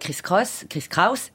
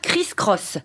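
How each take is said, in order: First: The surname has the vowel of 'house'. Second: The surname has the vowel of 'boss'. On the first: The speaker calls it right. "c'est Cross prononcé Kraus" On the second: The speaker calls it wrong. "Mais c'est pas Chris Cross"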